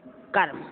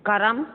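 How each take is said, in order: First: Said in the usual way. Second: "कर्म" as ka-ram; two-syllable rising "कर्म"; added vowel. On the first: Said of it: "शुद्ध". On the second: Shown as a demonstration. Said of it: "अशुद्ध, अशुद्ध".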